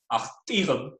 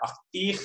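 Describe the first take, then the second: First: ACHTIG with tone and stress on the second-to-last syllable; stressed penult in achtig, unstressed ending; penultimate stress. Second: ACHTICH stressed on the last syllable; light first syllable, strong high second in achtich; final stress. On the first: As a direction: put the weight before the final syllable of achtig. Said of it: "stress on the penult". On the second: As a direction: hit the end of achtich. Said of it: "iambic foot and final stress". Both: Shown as a demonstration.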